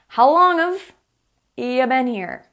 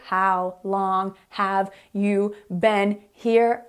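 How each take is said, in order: First: It is said fast, words run together. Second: It is said slowly, each word clear. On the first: "This is how native English speakers will ask you" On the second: "when I say it slowly and clearly"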